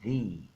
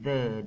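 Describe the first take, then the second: First: It ends in a long 'ee' vowel. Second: It ends in a short, weak 'uh' vowel. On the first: This is the form used before a vowel. The speaker calls it right. "dibacanya the" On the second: This is the form not used before a vowel. The speaker calls it wrong. "maka dibacanya tidak lagi the"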